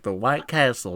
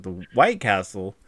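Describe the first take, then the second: First: Matter-of-fact mock uncle answer; imitating uncle's explanation. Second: Slow, drawn-out questioning repeat; puzzled echo. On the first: Uncle clarifying the nickname to a puzzled relative, imitated matter-of-factly. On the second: Retold or imitated. Relative questioning the uncle's odd nickname, slow puzzled echo. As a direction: echo it slowly, as if baffled.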